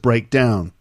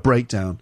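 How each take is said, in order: First: The stress falls on 'down'. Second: The stress falls on 'break'. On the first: It is a verb: to stop working. "Notice that if it's a verb, we stress the second part" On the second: It is a noun: a car problem that stops it driving. "The noun, a breakdown"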